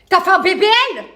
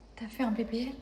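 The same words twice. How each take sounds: First: It is said in an angry tone. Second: It is said in a shy tone.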